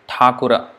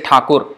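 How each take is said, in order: First: The word ends with a final vowel sound. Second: The word ends without a final vowel sound. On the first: This is the Sanskrit form. "In Sanskrit, Thakura" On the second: This is the Bengali or Hindi form. "In Bengali or Hindi, we say Thakur"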